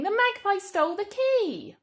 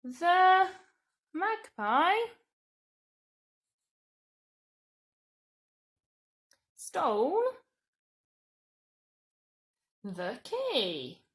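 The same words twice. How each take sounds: First: Much higher and louder, shocked. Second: Words spaced out for writing; slow dictation. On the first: Teacher reading the statement as shocking news. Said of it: "it is quite shocking". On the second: Teacher dictating a statement slowly. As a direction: dictate it one word at a time. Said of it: "We could say". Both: Shown as a demonstration.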